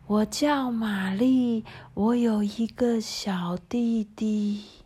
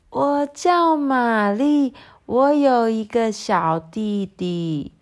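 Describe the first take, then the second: First: It is spoken very softly and quietly. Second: It is spoken a bit louder than before. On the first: "玛丽轻声地说。" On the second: "她用稍微大一点的声音说。"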